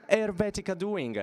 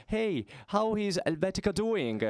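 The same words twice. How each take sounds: First: Said in the usual way. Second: Light Roman dialect, raised and cheery; a hint of Roman dialect, calling across the room. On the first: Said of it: "in a Roman dialect". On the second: Tennis friend greeting him across the locker room in mild Roman dialect. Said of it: "with a Roman dialect he says".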